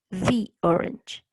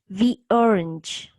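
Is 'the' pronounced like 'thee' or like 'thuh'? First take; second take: thee; thee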